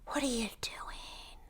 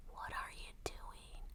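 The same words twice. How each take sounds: First: Whispered, slow and softer; mock whisper. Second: Barely audible, slow whisper; fainter mock whisper. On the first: Podcaster mimicking Paula's quiet question, slow whisper. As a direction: hiss the question under your breath in a mock whisper. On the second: Podcaster mimicking Paula, trailing off into a faint whisper. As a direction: let it fade almost to nothing. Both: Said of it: "So she talks".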